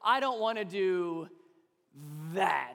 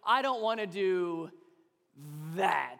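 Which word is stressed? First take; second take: that; that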